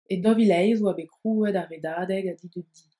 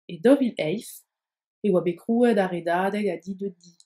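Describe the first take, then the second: First: It runs on without a pause, linking with Z. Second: There is a pause after 'dovil eis'. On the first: "vous ne faites plus la pause après dovil eis, alors il faudra prononcer un Z" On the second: "avec les pauses indiquées précédemment"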